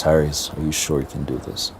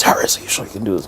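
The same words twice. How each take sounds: First: Said in the usual way. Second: Retold scream. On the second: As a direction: imitate an exasperated scream without the volume. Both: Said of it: "Then he screams".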